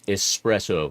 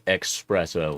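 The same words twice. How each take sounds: First: It starts with a plain 'es' sound. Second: It starts with an 'ex' sound. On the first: The speaker calls it right. "it's espresso" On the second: The speaker calls it wrong. "not espresso. there's no X in there"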